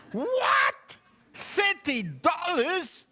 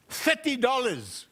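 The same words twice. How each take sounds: First: Much higher, slow disbelieving "Thirty dollars?"; shocked buyer. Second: Said in the usual way. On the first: Acted. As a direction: gasp at the price, stretching "Thirty".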